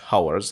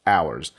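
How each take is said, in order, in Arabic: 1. تبدأ الكلمة بصوت H مسموع. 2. تبدأ الكلمة بحرف علة، ولا يوجد صوت H. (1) "ما بقولهاش hours" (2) "صوت ال H هنا طبعا silent"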